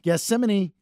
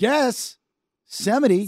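First: The word ends with a 'nee' sound. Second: The word ends with a 't' sound. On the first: The speaker calls it right. "There you go. Knee" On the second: The speaker calls it wrong. "You keep doing a T"

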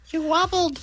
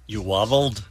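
First: It is said in a little child's voice. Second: It is said in a normal adult voice.

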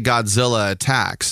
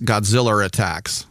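First: The two vowels meet with no R between. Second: An R sound links Godzilla to attacks. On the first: "they can't say Godzilla attacks" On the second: "It's Godzilla attacks"

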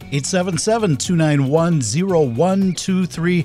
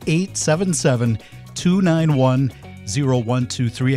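First: The number is said fast. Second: The number is said slowly.

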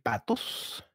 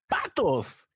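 First: The word is said in a sad tone. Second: The word is said in an excited tone.

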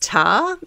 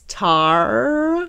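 First: It is said with an Australian accent. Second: It is said without an Australian accent.

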